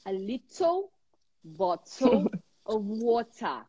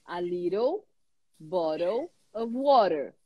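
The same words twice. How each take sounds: First: Crisp British English, "little" and "water" with clear t; British accent. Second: American English, flapped t in "little" and "water"; American accent. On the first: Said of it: "Como que um britânico vai falar". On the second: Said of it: "Como é que o americano fala". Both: Shown as a demonstration.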